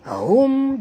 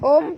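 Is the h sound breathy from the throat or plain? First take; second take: throat; plain. First: The h sound comes breathily from the throat. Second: The h sound is plain and light. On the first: The speaker calls it right. "bunyi dia hum dalam ya, dekat tekak kita" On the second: The speaker calls it wrong. "bukan hum"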